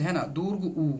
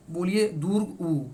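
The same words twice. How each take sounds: First: Said in the usual way. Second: दुर्ग उ said slowly with the lips pressed and rounded; teacher slowly modelling दुर्ग उ for the pupils; lip demo. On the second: Shown as a demonstration. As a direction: draw out दुर्ग उ so pupils see the lips meet. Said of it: "ये दोनों आपका सटता है ना".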